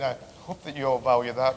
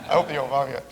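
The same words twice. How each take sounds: First: "value" given the main weight; whole line hurried, "value" stressed most. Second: "hope" weighted, "value" let go; sincere stress on "hope". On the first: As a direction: lean on "value", quick and light. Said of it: "I don't mean". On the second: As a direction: lean on "hope" instead of "value". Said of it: "but, uh". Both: Shown as a demonstration.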